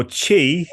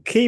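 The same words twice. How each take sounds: First: Qi opening with a CH sound; Chinese pronunciation. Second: Qi with a hard K, long ee; hard-K pronunciation. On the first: Teacher offers the Chinese way, Qi said "chee". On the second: Teacher explains the word for energy, Qi said "kee". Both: Shown as a demonstration. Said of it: "is the Chinese way".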